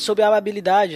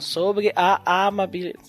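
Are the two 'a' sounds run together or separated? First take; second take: run together; separated. First: The two a sounds merge into one. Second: A short break separates the two a sounds. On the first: The speaker calls it wrong. "senão fica sobre a amabilidade, junto dois As" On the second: The speaker calls it right. "Não"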